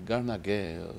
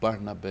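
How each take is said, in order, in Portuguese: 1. Os sons de b são trocados por sons de g. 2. O nome é dito com sons de b normais. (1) "é Garnagué" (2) "eu não falo Barnabé"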